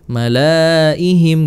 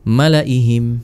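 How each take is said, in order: First: The vowel after the L is long. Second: The vowel after the L is short. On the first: The speaker calls it wrong. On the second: The speaker calls it right.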